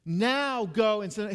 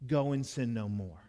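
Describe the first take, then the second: First: "Now" pitched high, loud and drawn out; high slow stress on NOW. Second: Said in the usual way. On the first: Shown as a demonstration. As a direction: punch "Now go and sin" slowly and loudly.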